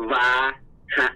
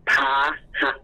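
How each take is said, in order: First: "วาหะ" with an initial W sound, syllable by syllable; original pronunciation. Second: "พาหะ" with an initial aspirated P sound, syllable by syllable; Lao pronunciation. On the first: Teacher showing a student the source word, original pronunciation. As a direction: sound out "วา", pause, then a short "หะ". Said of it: "คำเดิมจะออกเสียง". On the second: Teacher showing the word adapted into Lao, Lao pronunciation. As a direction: sound out "พา", pause, then a short "หะ". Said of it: "เมื่อแปลงเสียงเป็นคำลาว". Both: Shown as a demonstration.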